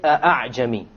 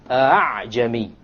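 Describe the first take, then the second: First: The second hamza is a full glottal stop. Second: The second hamza is softened, between hamza and alif. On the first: The speaker calls it wrong. "You don't say أَعْجَمِي" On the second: The speaker calls it right. "Rather you pronounce it as follows"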